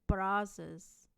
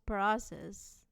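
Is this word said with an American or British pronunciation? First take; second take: American; American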